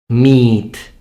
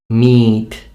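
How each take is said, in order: Both takes have the same delivery.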